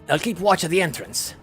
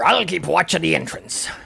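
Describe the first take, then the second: First: It is said in the speaker's ordinary accent. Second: It is said in a put-on pirate accent.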